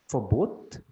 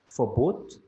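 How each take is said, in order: No difference in how they are said.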